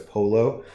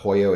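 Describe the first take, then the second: First: The double L is said flat, the Italian way. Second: The double L is said the Spanish way. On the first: The speaker calls it right. "in Italian the double L sound is just flat" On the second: The speaker calls it wrong. "It's not like it is in Spanish, so it's not pollo"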